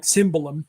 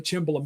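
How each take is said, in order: First: "cymbalum" opening like "sim", no ch; SIM-ba-lum for "cymbalum"; Hungarian-style pronunciation. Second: "cimbalom" opening like "chim"; CHIM-ba-lum for "cimbalom"; Italian-style pronunciation. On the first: Shown as a demonstration. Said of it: "in Hungarian, it's more like". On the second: Real, not acted. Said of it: "I keep thinking in, in Italian".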